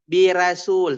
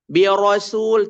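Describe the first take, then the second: First: The r is pronounced light and thin. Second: The r is pronounced heavy and thick. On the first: The speaker calls it wrong. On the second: The speaker calls it right.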